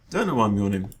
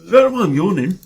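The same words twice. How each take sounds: First: Said in the usual way. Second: Said mid-yawn, higher and louder; yawning through the line. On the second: Real, not acted. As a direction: let the yawn stretch the words.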